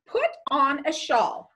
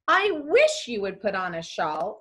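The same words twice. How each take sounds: First: Firm order with a falling end; direct command. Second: A wish with stress on "wish" and a rising end; wishful request. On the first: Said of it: "had to be a direct command". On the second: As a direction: lean on "wish", then lift the end. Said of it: "A wish or request". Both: Shown as a demonstration.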